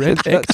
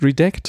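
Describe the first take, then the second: First: It is said as two words, red and act. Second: It is said as one word, like redact. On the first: The speaker calls it wrong. "es heißt nicht Red Act" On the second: The speaker calls it right. "es heißt Redact von sozusagen nachträglich schwärzen"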